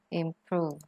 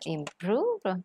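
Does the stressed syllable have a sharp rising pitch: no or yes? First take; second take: no; yes. First: The stressed syllable has no sharp rising tone. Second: The stressed syllable has a sharp rising tone. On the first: The speaker calls it right. "Nó đâu có sắc đâu" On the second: The speaker calls it wrong. "Đâu có được là improve"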